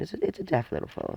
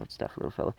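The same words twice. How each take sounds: First: Chirpy high line. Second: Breathy whispered echo of the line; a soft whispered aside; whispered repeat. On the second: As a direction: whisper it again to yourself. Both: Real, not acted. Repeats phrase, second take whispered.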